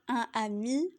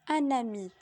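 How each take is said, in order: First: The n is not linked to the next word. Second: The n is linked into the next word. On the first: The speaker calls it wrong. "Ce serait faux de dire" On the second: The speaker calls it right. "la liaison est obligatoire entre un déterminant et un nom"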